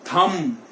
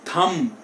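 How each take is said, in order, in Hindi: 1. आख़िर का b silent है। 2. आख़िर का b साइलेंट है।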